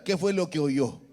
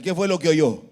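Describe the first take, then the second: First: Said in the usual way. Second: Louder question to the congregation; firm, projected teacher's question; louder prompt. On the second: Shown as a demonstration. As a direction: raise your voice and ask for a stronger answer. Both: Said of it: "Léalo más fuerte".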